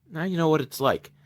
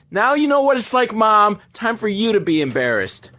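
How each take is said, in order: First: Softer, understated retort; quiet aside. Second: Gloating payback. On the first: Son getting back at mom, quiet retort. First, low take before louder repeat. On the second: Son telling mom it's her turn, mock taunting. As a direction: rub it in, pitched up. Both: Retold or imitated.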